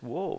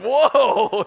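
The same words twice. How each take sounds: First: It is said mildly, with little energy. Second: It is said intensely, with great energy.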